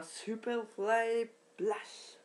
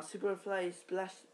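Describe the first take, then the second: First: Slow, stretched-out move name; hyped wrestling-move announcement; showy announcer call. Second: Said in the usual way. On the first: Pretend. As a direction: draw out each word like a ring announcer.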